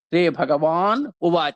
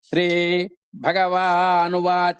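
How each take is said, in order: First: The last two words are said separately. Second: The last two words run together as one. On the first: The speaker calls it wrong. "విడదీసి ఇచ్చాడు కదండి" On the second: The speaker calls it right. "కలిపేసేయాలి"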